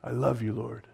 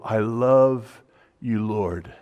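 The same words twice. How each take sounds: First: "I love you, Lord" much softer, fading almost to nothing on "Lord"; near-whisper repeat. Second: "I love you, Lord" said slowly, "Lord" falling away; slow heartfelt declaration. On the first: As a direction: breathe "I love you, Lord" as a hushed prayer. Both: Retold or imitated. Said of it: "and powerful".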